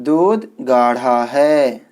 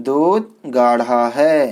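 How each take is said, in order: No difference in how they are said.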